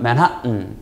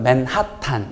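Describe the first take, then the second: First: The last syllable has a reduced 'uh' vowel. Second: The last syllable has a full 'a' vowel. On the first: This is how English speakers say it. "영어식 발음은" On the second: This is how Koreans commonly say it. "우리끼리 발음은"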